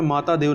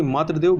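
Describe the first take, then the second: First: माता देव with long "taa"; wrong form. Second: मातृदेव with "tri" in the middle; correct form. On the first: Teacher rejects the error, माता देव with "taa". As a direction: say माता देव as two words, "maataa dev". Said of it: "माता देव नहीं होता". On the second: Teacher corrects for learners, मातृदेव with "tri". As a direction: say मातृदेव as "maatri-dev". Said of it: "बल्कि मातृदेव". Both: Shown as a demonstration.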